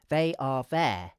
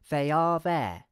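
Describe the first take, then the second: First: Each word is said separately, unlinked. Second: The full words are linked together smoothly. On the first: "we could say the words separately" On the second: "we could connect the words"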